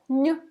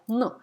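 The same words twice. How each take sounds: First: "n" palatalized, like ny in canyon; soft N. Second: "n" plain, with no y glide; hard N. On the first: Teacher showing the first consonant of pianino, soft N. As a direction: say "n" with the tongue raised, a y glide after it. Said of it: "first n in this word is soft". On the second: Teacher showing the second consonant of pianino, hard N. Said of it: "the second one is hard". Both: Shown as a demonstration.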